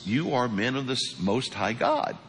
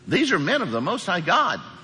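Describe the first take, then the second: First: It is said in a plain, straight way. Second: It is said in a mocking, sneering way.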